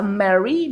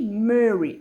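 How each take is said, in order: First: "Mary" with a clear open a in the first syllable; rejected pronunciation. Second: "Murray" with a rounded French eu in the first syllable; corrected pronunciation. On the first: Crafter showing viewers the word it is not, open-vowelled "Mary". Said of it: "Pas Mary, Murray". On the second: Crafter correcting the title for viewers, rounded vowel in "Murray". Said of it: "M E deux R Y". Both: Shown as a demonstration.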